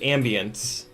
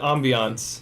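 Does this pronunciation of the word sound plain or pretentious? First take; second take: plain; pretentious. First: The word is said in a plain, everyday way. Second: The word is said in a fancy, pretentious way. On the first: It sounds less pretentious. The speaker calls it right. "then it feels a lot less douchey" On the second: It sounds pretentious. The speaker calls it wrong. "there's not a way to say that and not feel douchey"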